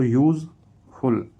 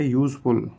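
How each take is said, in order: First: "useful" split into two louder, separated syllables. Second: Said in the usual way. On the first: Shown as a demonstration. Teacher showing a two-syllable word, "useful" syllable by syllable. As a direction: stress each half of "useful" with a pause between. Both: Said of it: "टू syllable".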